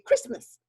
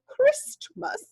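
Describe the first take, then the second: First: The word is said quickly with sounds run together. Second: The word is said slowly with each sound stretched. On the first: "We say it fast" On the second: "we don't usually say Christmas, because we don't talk like the Queen"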